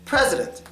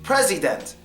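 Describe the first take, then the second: First: The middle vowel is reduced to a schwa. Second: The middle vowel is a full, clear vowel. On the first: "But it's just president" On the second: "if it wasn't schwad, it would be president"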